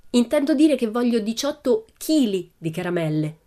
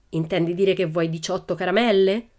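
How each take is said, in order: First: High, emphatic "chili" set apart; stress on CHILI. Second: Said in the usual way. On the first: A narrator's reading. Pippi correcting the assistant, high stress on "chili". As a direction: correct the listener by punching "chili".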